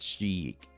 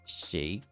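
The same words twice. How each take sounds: First: The vowel sounds like 'ee', as in 'sheek'. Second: The vowel sounds like 'ay', as in 'shake'. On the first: The speaker calls it wrong. "It's not Sheik" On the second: The speaker calls it right. "so it is Shake"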